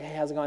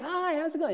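First: It is said in a relaxed, casual way. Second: It is said in a pushy, aggressive way.

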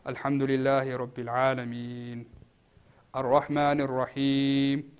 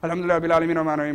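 First: It is recited slowly and calmly. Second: It is recited in a fast rush.

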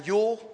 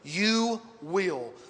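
First: It is said as one contracted syllable. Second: It is said as two full words. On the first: "I'm using the contraction there" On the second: "Let me say it this way"

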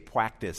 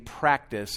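First: The R sound is missing. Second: The R sound is clearly pronounced. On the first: The speaker calls it wrong. "I would say practice" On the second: The speaker calls it right. "Instead of saying practice"

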